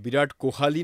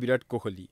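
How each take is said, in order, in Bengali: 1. নামে 'h'-এর পরে 'a' স্বরধ্বনি আছে। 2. নামে 'h'-এর পরে কোনো স্বরধ্বনি নেই।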